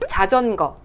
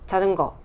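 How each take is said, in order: First: The ㅈ sounds are crisp with firm contact. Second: The ㅈ sounds are weak with loose contact. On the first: The speaker calls it right. "혀가 좀 부지런히 닿아야 되기 때문에" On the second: The speaker calls it wrong. "힘이 부족해서 이게 안 닿는 경우가 있어요. 그러면은"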